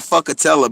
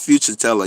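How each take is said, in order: First: The middle of the name sounds like 'ka'. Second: The middle of the name sounds like 'chur'. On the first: The speaker calls it wrong. "I always be saying fuckatella" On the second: The speaker calls it right. "but I think it's future teller"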